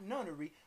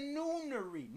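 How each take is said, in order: First: The first vowel is a short uh sound. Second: The first vowel is a long oo sound. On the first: The speaker calls it wrong. "not nunnery" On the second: The speaker calls it right. "In the noonery"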